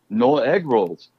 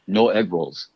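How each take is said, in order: First: Asian accent, a touch more irritated. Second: Flat delivery-guy line in an Asian accent; deadpan Asian accent, first take. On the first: Delivery guy repeats his line to customer, a bit more irritated. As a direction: snap it a bit more annoyed. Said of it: "a little bit more irritated". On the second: Auditioning actor reads his line in an Asian accent, deadpan. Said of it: "first line with an Asian accent". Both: Shown as a demonstration.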